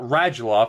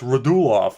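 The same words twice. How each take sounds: First: The name is said the anglicized way. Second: The name is said the native way. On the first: The speaker calls it wrong. "It's not Radulov" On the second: The speaker calls it right. "it's Radulov"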